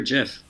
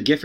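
First: "gif" said like "jiff"; soft-g pronunciation. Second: "gif" with a hard g; hard-g pronunciation. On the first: Offering a rival pronunciation in the holy war, "gif" with soft g. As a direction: say "gif" with an opening j sound. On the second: Offering a rival pronunciation in the holy war, "gif" with hard g. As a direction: say "gif" starting like "gift". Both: Shown as a demonstration. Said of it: "Is it gif or gif?".

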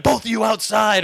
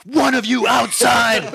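First: Firm order. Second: Higher, louder, slow shout with a laugh; shouted correction. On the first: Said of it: "I'd been like". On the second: Barista correcting himself at two fighters, slow shout. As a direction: bark it out word by word. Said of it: "I'm like". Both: Retold or imitated.

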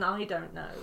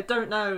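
First: Said in the usual way. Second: "don't know" said short, with no "I"; quick Northern "don't know", syllable eaten; clipped dialect form. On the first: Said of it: "it's quicker than". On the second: Shown as a demonstration. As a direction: drop the pronoun and run "don't know" together. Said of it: "eating syllables in the middle of words".

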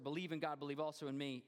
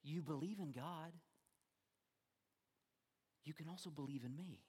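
First: Said in the usual way. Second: Softer, unhurried reassurance; preacher showing how the verse should be read, more softly; gentle reading. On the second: Shown as a demonstration. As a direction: offer it as a gentle promise. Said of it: "this is how we should read it".

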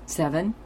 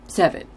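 First: SEVEN with a rising, questioning end; tentative question. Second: SEVEN stated firmly, no question in it; trying on confidence. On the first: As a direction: ask SEVEN as if testing it out. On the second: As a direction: land SEVEN as a decided answer. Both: Retold or imitated. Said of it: "like she's trying on her confidence".

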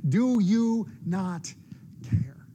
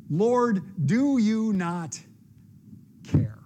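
First: Despairing plea. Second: Louder, slow, drawn-out demand; exasperated warning. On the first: Desperate prayer in dark nights. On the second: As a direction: make him answer for it. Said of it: "that same tone was very likely present in Martha's voice". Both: Acted.

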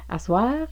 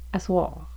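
First: "Asseoir" ending in a bright front "wa", no r. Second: "asseoir" ending in a dark back "wɑ", no r. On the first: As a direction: say "Asseoir" as "aswa" with a light open a. (« Asseoir » prononcé « aswa », a antérieur) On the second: (« asseoir » prononcé « aswɑ », a postérieur) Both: Shown as a demonstration. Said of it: "deux prononciations pour la voyelle wa".

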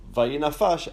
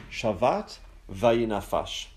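First: "vayinafash" repeated on its own, a little higher and louder, vai-nah-FAHSH; emphatic repeat. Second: "Shavat vayinafash" said slowly, each syllable clear, shah-VAHT vai-nah-FAHSH; careful Hebrew quote. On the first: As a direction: lift "vayinafash" out as the key word. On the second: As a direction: read "Shavat vayinafash" out slowly and deliberately as scripture. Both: Shown as a demonstration. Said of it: "it says in the Hebrew".

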